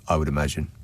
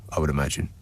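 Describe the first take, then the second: The two takes are said the same way.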